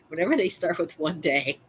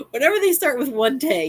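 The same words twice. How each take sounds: First: Said in the usual way. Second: Higher, louder mock of the neighbor; mocking old lady storyteller. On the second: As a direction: ham up her "one day" opener. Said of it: "you got a whopper coming".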